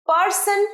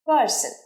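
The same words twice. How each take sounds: First: The r sound is pronounced strongly. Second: The r sound is pronounced weakly. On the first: The speaker calls it wrong. "পারসন নয়" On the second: The speaker calls it right. "রটা একটু কম উচ্চারণ করবে"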